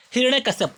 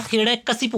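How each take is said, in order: First: हिरण्यकश्यप ending in "kasap"; wrong form shown. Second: हिरण्यकशिप ending in "kasip(u)"; correct form shown. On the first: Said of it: "कश्यप नहीं होता है". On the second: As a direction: say हिरण्यकशिप with an i before the p. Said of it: "हिरण्यकशिप होता है". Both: Shown as a demonstration.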